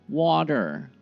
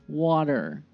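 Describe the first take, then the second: No difference in how they are said.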